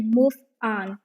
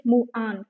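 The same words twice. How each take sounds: First: "move on" with the v clearly sounded; correct pronunciation. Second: "move on" as "moo on", v dropped; missing ending sound. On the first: Teacher correcting missed ending sounds, "move on" with its v. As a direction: close "move" on a v before "on". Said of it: "you just move on". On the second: Teacher copying the student's slip, "move on" without the v. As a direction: leave the v out of "move on". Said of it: "or the ending sounds". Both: Shown as a demonstration.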